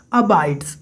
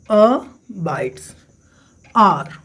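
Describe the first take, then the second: First: Said in the usual way. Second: "abides" split into a, pause, bides; syllable by syllable. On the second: Shown as a demonstration. Teacher counting sounds in a poem line, "abides" broken into syllables. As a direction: break "abides" into two separate beats. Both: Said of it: "तो number of sounds count करिए".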